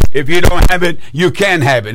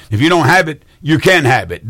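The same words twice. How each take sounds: First: "If you don't have it" hit loud, then dropping back; emphatic repeat. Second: Said in the usual way. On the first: Real, not acted. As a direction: drive home "If you don't have it" with a burst of volume. Repeats it after "Did you hear me?.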